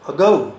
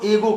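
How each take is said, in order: First: The first vowel is a short 'uh' sound. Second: The first vowel is a full 'ay' sound. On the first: The speaker calls it right. "उसका सही उच्चारण है" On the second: The speaker calls it wrong. "उसको एगो कहते हैं। अरे वो एगो नहीं है"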